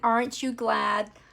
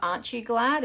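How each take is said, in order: First: It is said in an American accent. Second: It is said in a non-American accent. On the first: "It's like saying it with an American accent" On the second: "Instead of aren't you glad"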